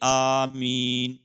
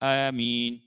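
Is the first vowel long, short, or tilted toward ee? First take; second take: long; tilted. First: The first vowel is drawn out long. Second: The first vowel is tilted toward an ee sound. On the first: "مد کے الف کو کھینچ کر پڑھے" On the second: "الف کو یا کی طرف تھوڑا سا مائل کر کے"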